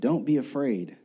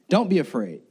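First: It is said softly and quietly. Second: It is said loudly, with force.

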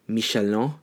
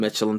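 First: It is said with a French-style pronunciation. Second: It is said with a plain English pronunciation. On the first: It refers to the restaurant guide. "But if you're already eating food, it's now Michelin" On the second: It refers to the tire brand. "get your tires changed, you go"

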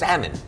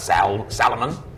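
First: The L sound is silent. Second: The L sound is clearly pronounced. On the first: The speaker calls it right. "They said you can't hear the L. They said it's salmon" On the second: The speaker calls it wrong. "It's not Salmon"

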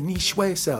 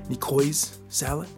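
First: Nicoise is said in a fancy, refined way. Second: Nicoise is sounded out literally, letter by letter. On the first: This is how a refined, knowledgeable person would say it. "if you're more of an elegant person" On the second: This is how a casual reader would say it. "Because the way it's spelled, it's like N-I-C-O-I-S-E"

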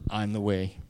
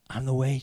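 First: It sounds arrogant and boastful. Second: It sounds gentle and comforting.

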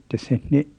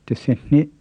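Both takes have the same delivery.

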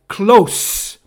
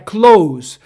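First: The word ends with a hissing s sound. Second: The word ends with a buzzing z sound. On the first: It means near. "Perto é close" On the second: It means to shut. "Fechar é close"

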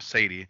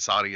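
First: The name is said with an English pronunciation. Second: The name is said with a Spanish-sounding pronunciation. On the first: The speaker calls it right. "instead of Sadie. She's British, not Spanish" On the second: The speaker calls it wrong. "You got me saying it Sadie"

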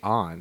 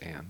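First: The name is said with a Japanese-style vowel. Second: The name is said with an English-style vowel. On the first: This is how the game's voices say it. The speaker calls it wrong. "It's like they say An" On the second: This is how the name is spelled and meant. The speaker calls it right. "Her name's Anne"

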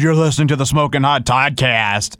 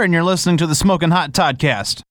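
First: It is said in a put-on cool way. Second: It is said in a plain, ordinary way. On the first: The speaker calls it wrong. "Don't say it some way cool, like, dude" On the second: The speaker calls it right. "Say it like you would say"

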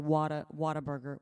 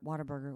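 First: The name begins with a full 'what a'. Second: The name begins with a blended 'water'. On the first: "I don't say Whataburger"

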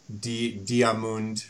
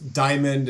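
First: The name is said with a French pronunciation. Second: The name is said with an English pronunciation. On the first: This is the name in the original version. "French is something I can't" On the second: This is the name used in the dub. "instead of"

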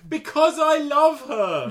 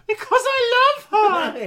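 First: It is said without a real shriek. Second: It is said as a high shriek.

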